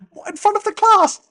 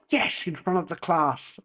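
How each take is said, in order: First: High, loud incredulous squeal; panicked pupil's outburst, pitched way up; dismayed pupil. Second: Measured, matter-of-fact teacher's reply; lightly acted stern teacher; unmoved teacher. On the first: Retold or imitated. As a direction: yelp it like a horrified schoolkid. Dismayed pupil in acted classroom exchange. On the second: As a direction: confirm it calmly to a panicking pupil. Teacher answering the horrified pupil.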